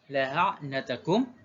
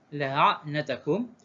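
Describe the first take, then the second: No difference in how they are said.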